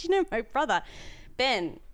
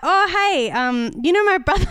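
First: Said in the usual way. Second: Much higher and louder, chirpy mock friendliness; awkward over-eager greeting. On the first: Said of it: "I said". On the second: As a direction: blurt it out too brightly. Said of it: "And then I was like".

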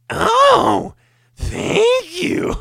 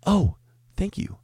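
First: Extremely high falsetto squeal of thanks; exaggerated version. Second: High but modest squeaky thanks; the first, milder take of the customer; original impression. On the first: Comic's exaggerated customer thanks, shrill falsetto squeal. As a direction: push it way up into a cartoon squeal. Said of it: "and I went". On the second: Original version of customer's thanks, milder high squeak. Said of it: "This is how it was".

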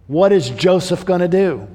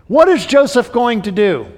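First: Said in the usual way. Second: Raised, louder repeat of the question; emphatic question. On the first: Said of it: "preacher repeats the question". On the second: Shown as a demonstration. Preacher to congregation, repeating the question louder. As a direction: press the question home to the congregation. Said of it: "preacher repeats the question louder".

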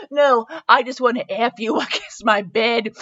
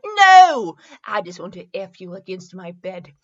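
First: Breaking into laughter mid-line; laughing. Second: Said in the usual way. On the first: Real, not acted. Reader cracking up at a racy line, laughing. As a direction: try to read it and crack up.

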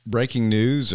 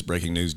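First: News anchor voice. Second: Said in the usual way. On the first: Pretend.

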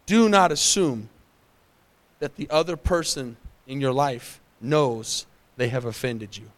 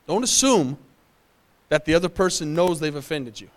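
First: Slow, dropping to a low hush on "have offended you"; slow emphatic point. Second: "other" stressed, ending in a falling tune; repeated with stress. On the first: Pastor dictates the key point to the congregation, slow and weighty. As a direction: lean into each word so notes can be taken. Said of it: "Write this down if you're taking notes". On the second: Pastor repeats the key point to the congregation, stressing "other". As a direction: restate it firmly, leaning on "other". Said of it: "Did y'all get that?". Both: Real, not acted.

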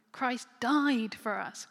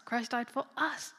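First: "died" loud and drawn out; stress on DIED. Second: "us" stretched and punched at the end; stress on US. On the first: Preacher emphasizing each word of a verse, stress on "died". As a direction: land heavily and slowly on "died". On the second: Preacher emphasizing each word of a verse, stress on "us". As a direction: save the weight for the final "us". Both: Shown as a demonstration. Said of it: "emphasize each word in turn".

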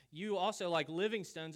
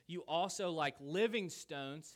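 First: "You also" higher and louder, "living stones" pushed; repeated for emphasis. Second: "living stones" slowed and louder; stressed play on words. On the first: Preacher repeating the pun to the congregation, louder. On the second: Preacher reading Peter's letter aloud, stressing the pun. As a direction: lean on "living stones" slowly. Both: Shown as a demonstration. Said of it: "how about that play on words?".

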